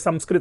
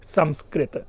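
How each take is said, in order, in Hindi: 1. शब्द को सहज, सरल ढंग से बोला गया है। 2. शब्द को सावधानी से, सटीक ढंग से बोला गया है। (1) "संस्कृत अगर मैं बोलता हूं वो मेरे उसमें एक पर बैठ गया है" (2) "सही उच्चारण क्या है?"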